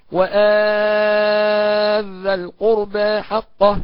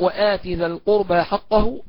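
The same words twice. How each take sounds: First: "وآت ذا" with the تاء merged into ذا, sung slowly; assimilated, chanted. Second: "وآت ذا" with the تاء said clearly before ذا; clear pronunciation. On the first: Chanted, teacher demonstrating idgham in melodic recitation. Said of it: "وكذلك بالإدغام". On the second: Teacher demonstrating izhar, slow reading. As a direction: keep the تاء of "وآت" separate from "ذا". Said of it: "قرئ بالإظهار هكذا". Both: Shown as a demonstration.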